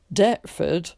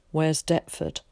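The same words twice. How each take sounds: First: Deptford said loud, flat and falling like a Londoner; loud, mocking repeat of Deptford; mock London imitation. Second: Said in the usual way. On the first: A narrator's reading. Ticket man mocking the boy's country way of saying it, loud. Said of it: "imitated the man". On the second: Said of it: "asked Tom".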